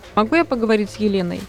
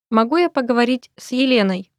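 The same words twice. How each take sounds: First: It is said at normal conversational speed. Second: It is said slowly and carefully.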